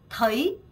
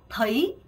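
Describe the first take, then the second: No difference in how they are said.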